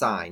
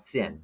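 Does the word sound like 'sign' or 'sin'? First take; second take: sign; sin. First: The vowel is a long 'eye' sound. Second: The vowel is a short 'ih' sound. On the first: The speaker calls it right. "it's still pronounced sine" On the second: The speaker calls it wrong. "it's not sin"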